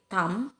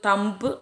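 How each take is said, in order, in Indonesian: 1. Kata ini berakhir pada bunyi m, tidak ada b. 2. Kata ini berakhir dengan bunyi b yang terdengar jelas. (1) "Jadi tam" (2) "Ini kenapa nggak disebut thumb ya?"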